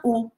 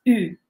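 First: U as a plain OO; plain back U. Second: U fronted and rounded, between EE and OO; French U. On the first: Teacher rules out a familiar sound, U as OO. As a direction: say U as OO, at the back of the mouth. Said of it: "it's not U". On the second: Teacher reveals the new sound, U the French way. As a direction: say EE through rounded lips for U. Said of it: "It's something in between". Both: Shown as a demonstration.

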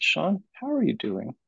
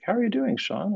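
First: Leaning in, asking it for real this time; mean the question, gently; pointed question. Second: Supervisor's quick, much higher check-in; casual greeting. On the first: Supervisor leans in and asks her trainee again, sincerely. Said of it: "she leaned forward and she said". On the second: Supervisor casually greets her trainee, high and light. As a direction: toss off a breezy how-are-you. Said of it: "and she's like". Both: Retold or imitated.

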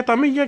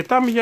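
First: Ταμίγια said with stress on the μί; Ταμίγια, the middle syllable stressed; alternative pronunciation. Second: Τάμια said with stress on the first syllable; preferred pronunciation. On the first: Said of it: "την προφέρουν και Ταμίγια και Τάμια". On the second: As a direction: say Τάμια as TA-mia, stressed up front. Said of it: "το πιο σωστό ότι είναι Τάμια". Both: Shown as a demonstration.

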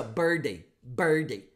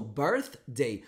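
First: "birthday" with the TH dropped, said like "birday"; common mistake. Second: "birthday" with a clear TH before "day"; correct birthday. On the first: Retold or imitated. Teacher mimics what many students say. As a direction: imitate a learner skipping the TH. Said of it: "O que muita gente faz é assim". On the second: Shown as a demonstration. Teacher models the correct pronunciation. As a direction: keep the TH in "birthday". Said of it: "aí você faz o som".

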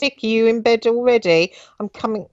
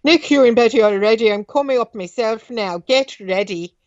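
First: Said in the usual way. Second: A lightly voiced Irish father, a bit higher; Irish accent. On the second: Father calls to Nick from the stairs in an Irish accent. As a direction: give it the father's Irish lilt. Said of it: "Let's do that accent".

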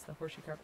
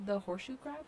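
First: Lower, settled statement of "horseshoe crab"; confirming. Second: Rising question on "horseshoe crab". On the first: Gamer answering her own question, confirming. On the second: Gamer checking what she spotted, questioning. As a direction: ask "horseshoe crab" as a check, voice lifting at the end. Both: Real, not acted.

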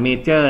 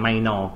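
First: "major" said as the wrong reading, rhyming with "may"; wrong pronunciation. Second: "minor" in the reading used for numbers. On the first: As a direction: demonstrate the wrong "major" to avoid. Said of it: "อย่าอ่าน major นะ". (ตัวอย่างการอ่านผิด "major") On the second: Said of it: "ถ้าเป็นตัวเลขจะอ่าน". (การอ่าน "minor" แบบตัวเลข) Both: Shown as a demonstration.

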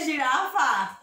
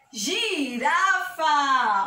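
First: Said in the usual way. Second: "Girafa" stretched very long by syllable; slow syllable demo. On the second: Shown as a demonstration. Teacher giving children a gi word, very drawn out. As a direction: sound out "Girafa" very slowly.

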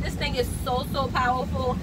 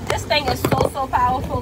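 First: Said in the usual way. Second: Louder, pressing on "powerful"; louder emphatic repeat. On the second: Real, not acted. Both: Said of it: "repeats it louder".

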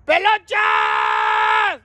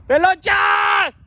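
First: Long call rising at the end; drawn-out rising shout. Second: Long falling call, slow and loud; drawn-out shout. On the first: Calling a friend from the street, long rising shout. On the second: Calling a friend from the street, long falling shout. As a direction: call up to the roof, stretching the name. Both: Real, not acted.

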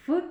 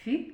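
First: Isolated hard "Ф", a short unsoftened f; hard F sound. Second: Palatalised "Ф", close to "fi"; softened F sound. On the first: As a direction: say "Ф" as a hard consonant. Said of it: "Твердий звук". (твердий звук «Ф») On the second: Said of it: "пом'якшений звук". (пом'якшений звук «Ф») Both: Shown as a demonstration.

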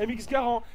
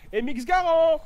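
First: Said in the usual way. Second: Higher and louder on Garand; calling out the gun name, thrilled; excited. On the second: Real, not acted. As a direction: Garand called out with sudden excitement.

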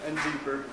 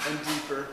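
No difference in how they are said.

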